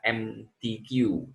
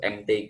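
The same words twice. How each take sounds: First: The letters are named with English letter sounds. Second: The letters are named with Indonesian letter sounds. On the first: The speaker calls it wrong. "jangan dibaca M T Q, nah itu ke Inggris-Inggrisan" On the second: The speaker calls it right. "nah itu M T Q"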